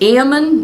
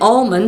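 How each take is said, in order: First: The word is said without an L sound. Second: The word is said with an L sound. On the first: This is how it is said north of Sacramento. "It's Ammon north of Sacramento" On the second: This is how it is said south of Sacramento. "Almond south of Sacramento"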